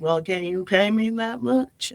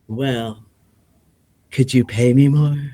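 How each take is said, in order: First: It is said in his normal voice. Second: It is said in a sexy lounge voice.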